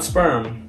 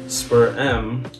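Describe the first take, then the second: First: It is said as one blended syllable. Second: It is said as two separate syllables. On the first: The speaker calls it wrong. "not Sperm" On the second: The speaker calls it right.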